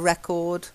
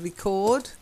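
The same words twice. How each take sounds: First: The stress is on the first syllable. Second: The stress is on the second syllable. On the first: It is used as a noun. "when you're using record or as a noun" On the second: It is used as a verb. "To record is the verb"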